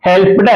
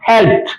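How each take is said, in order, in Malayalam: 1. അവസാനഭാഗം ഒരു അധിക അക്ഷരമായി ഉച്ചരിക്കുന്നു. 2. അവസാനഭാഗം ഒരു ചെറിയ t ശബ്ദമാണ്. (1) "helped അല്ല" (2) "അങ്ങനെ ഉച്ചരിക്കുക"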